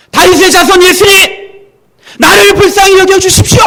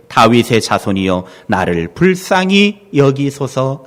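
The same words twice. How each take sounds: First: Much higher, loud pleading shout; desperate cry. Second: Said in the usual way. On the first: Retold or imitated. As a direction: cry out to be heard over a crowd. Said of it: "소리를 듣자마자". (절박하게 높이 외치는 소리) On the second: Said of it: "더욱 크게 소리질러 이르되".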